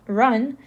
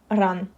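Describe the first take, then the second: First: "run" with an ordinary English R. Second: "run" with a Russian rolled R. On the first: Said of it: "It's pronounced like run". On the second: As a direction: say "run" with the tongue-tip Russian R. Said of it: "pronounce this word run with the Russian R sound". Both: Shown as a demonstration.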